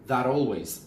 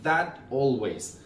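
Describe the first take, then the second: First: It is said quickly with a d-like linking sound. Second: It is said slowly with a clear t sound. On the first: "if we pronounce it like very quickly" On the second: "If we pronounce it slowly"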